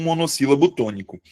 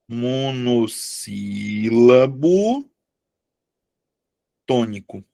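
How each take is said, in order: First: Said in the usual way. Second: Syllable by syllable. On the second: Shown as a demonstration. Teacher dictates monossílabo tônico to the class, very slowly. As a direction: draw out each syllable as if writing it.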